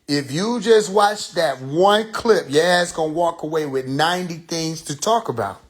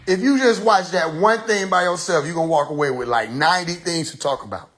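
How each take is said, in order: First: It is said slowly. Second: It is said at normal speed.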